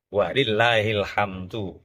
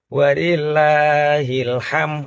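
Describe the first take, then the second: First: The word ends with a clear d sound. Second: The word ends on m, without the d. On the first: All praise belongs to God. The speaker calls it right. "kabene puji ada dalnya" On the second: God has an in-law. The speaker calls it wrong. "ham tok dale ilang"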